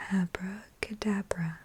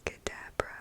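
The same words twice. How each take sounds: First: Abracadabra in a soft voiced murmur; soft-spoken voice. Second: Abracadabra breathed as unvoiced whisper. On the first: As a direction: say Abracadabra gently with voice. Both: Shown as a demonstration. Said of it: "whisper voice and soft-spoken trigger words".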